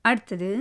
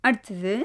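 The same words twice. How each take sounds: No difference in how they are said.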